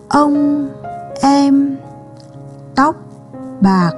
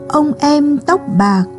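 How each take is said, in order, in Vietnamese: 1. Dòng này được đọc với tốc độ chậm hơn. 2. Dòng này được đọc với tốc độ bình thường, nhanh hơn.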